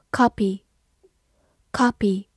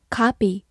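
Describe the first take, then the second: First: "Copy" with a short rounded British O; British "Copy", short O as in British "hot"; non-American pronunciation. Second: "copy" with an open, unrounded "ah"; American "copy" with the vowel of "father"; American pronunciation. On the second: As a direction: say "copy" the American way, like "kah-pee". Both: Shown as a demonstration. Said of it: "美式发音".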